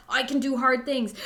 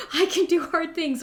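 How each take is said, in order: First: Said in the usual way. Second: The second "I can do hard things" higher and louder, more insistent; repeating her mantra down the mountain, more insistent; firmer mantra. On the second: Retold or imitated. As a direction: push the mantra harder the second time. Repeated mantra, pushed harder.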